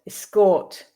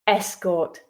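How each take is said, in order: First: The stress is on the second syllable. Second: The stress is on the first syllable. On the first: It is used as a verb. "the second syllable with the verbs" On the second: It is used as a noun. "stressing the first syllable with the nouns"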